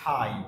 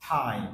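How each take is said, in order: No difference in how they are said.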